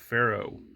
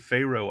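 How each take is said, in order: First: The first vowel sounds like in 'fur'. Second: The first vowel sounds like in 'fair'. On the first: The speaker calls it right. "it's actually more of a pharaoh, as in uh, farmers have furrows" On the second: The speaker calls it wrong. "I call it naturally Faroe Islands, as in Egypt has a pharaoh"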